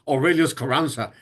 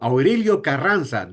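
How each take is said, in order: First: The first name ends with an 'us' sound. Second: The first name ends with an 'o' sound. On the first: The speaker calls it wrong. "Don't kill your name like your father says" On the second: The speaker calls it right. "That's the way, the right way of saying your name"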